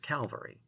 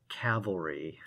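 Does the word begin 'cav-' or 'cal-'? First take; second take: cal-; cav-. First: The word begins with 'cal' before the 'v'. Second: The word begins with 'cav' before the 'l'. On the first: The speaker calls it wrong. "I pronounce it like a lot of Americans do, as Calvary" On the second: The speaker calls it right. "the word that I always point to is cavalry"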